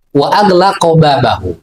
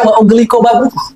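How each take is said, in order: First: The verb begins with 'agh' and the noun ends 'babahu'. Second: The verb begins with 'ugh' and the noun ends 'babuh'. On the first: The speaker calls it right. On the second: The speaker calls it wrong. "kemudian dibaca wa ughliqa babuh"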